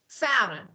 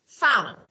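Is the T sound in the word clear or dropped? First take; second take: dropped; dropped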